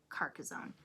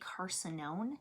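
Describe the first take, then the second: First: The middle syllable sounds like 'cass'. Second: The middle syllable sounds like 'sin'. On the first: This is the proper name of the game. The speaker calls it right. "I'm pretty sure it's called Car- Carcassonne" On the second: This is the household's habitual pronunciation. The speaker calls it wrong. "We say Carcinone, um, and I'm one hundred percent sure that's wrong"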